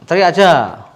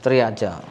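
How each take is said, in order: First: Pushed out louder, urging him to shout. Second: Said in the usual way. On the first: Shown as a demonstration. Therapist urges patient louder to just shout. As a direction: call it out louder as encouragement.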